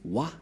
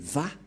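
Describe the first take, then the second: First: The syllable begins with a W sound. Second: The syllable begins with a V sound. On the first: This is how people commonly say it. The speaker calls it wrong. "les gens disent Wa" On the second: This is how Jewish speakers say it. The speaker calls it right. "mais Va pour les Juifs"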